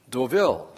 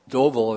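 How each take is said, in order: First: The name is pronounced the French way. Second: The name is pronounced a non-French way. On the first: The speaker calls it right. "if you say it right" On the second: The speaker calls it wrong. "Deauville is saying it wrong"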